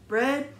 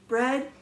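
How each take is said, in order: No difference in how they are said.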